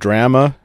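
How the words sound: The word drama is said with a Canadian pronunciation. This is how Canadians say it. "They call"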